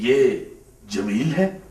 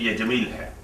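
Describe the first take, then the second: First: It is said as a doubtful question. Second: It is said as a confident statement.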